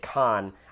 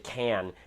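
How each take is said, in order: First: The vowel is like in 'con'. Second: The vowel is like in 'can'. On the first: "when I say con, I feel like Captain Kirk" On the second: "I always say can"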